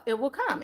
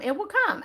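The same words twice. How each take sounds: First: Said in the usual way. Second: "It will come" repeated much higher with a lift; higher, insistent "come"; emphatic repeat. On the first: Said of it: "Yep, treat yourself". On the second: Shown as a demonstration. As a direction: push the second "It will come" up high for assurance.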